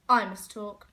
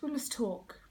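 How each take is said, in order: First: I set off as a correction; stress on I. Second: Said in the usual way. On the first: Acted. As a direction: lean on "I", meaning me alone.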